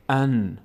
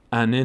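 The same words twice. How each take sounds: First: "ان" closed on a held ن with no vowel; still nun. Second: "انه" with a short e leaking after ن; wrong voweled nun. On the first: Teacher shows the unvoweled letter, "ان" with still ن. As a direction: stop "ان" cleanly on the ن. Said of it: "حرکت هرگز نباید حرکت بکنه". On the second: Teacher shows what to avoid, "انه" with added vowel. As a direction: let the ن of "انه" bounce into an e. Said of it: "نشه". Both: Shown as a demonstration.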